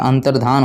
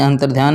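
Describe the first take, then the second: First: "अंतर्धान" with a plain "धा", no "य"; correct form. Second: "अंतर्ध्यान" with a "ध्य" cluster; wrong form. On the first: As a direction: say "अंतर्धान" cleanly as dhaan. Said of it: "अंतर्धान होता है". ("अंतर्धान" सिर्फ़ "धा" के साथ, बिना "य") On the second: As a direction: say "अंतर्ध्यान" with dhya, as the mistake. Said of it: "अंतर्ध्यान नहीं होता". ("अंतर्ध्यान" को "ध्य" के साथ बोलें) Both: Shown as a demonstration.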